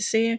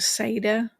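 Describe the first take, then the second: First: No consonant is heard in the middle of the word. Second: A consonant is heard in the middle of the word. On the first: This is the speaker's own way of saying it. "I pronounce it seer because that works for me" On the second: Some other people say it this way. "Some pronounce it like that"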